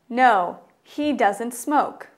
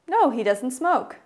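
First: It is said at a normal, slower pace. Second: It is said at a faster pace.

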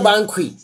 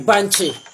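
First: The ending is pronounced with a 'kw' sound. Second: The ending is pronounced with a 'ch' sound. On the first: The speaker calls it wrong. "No, not Bankui" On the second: The speaker calls it right. "K-Y-E is Chi. So Banchi"

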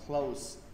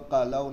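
First: The cl- cluster is said as one syllable. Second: The cl- cluster is split into two syllables. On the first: The speaker calls it right. "nó khổ một âm thôi" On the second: The speaker calls it wrong. "Đừng có cờ lâu"

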